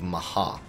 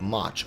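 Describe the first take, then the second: First: The name is said as two syllables, Japanese-style. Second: The name is said as one short English syllable.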